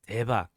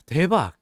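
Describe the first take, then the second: First: It is said in a shocked, disapproving tone. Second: It is said in an excited, delighted tone. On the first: The speaker can't believe someone did that. "it's kind of like, I can't believe you did that" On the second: The speaker thinks it is amazing. "It's like, oh my God, that's so amazing"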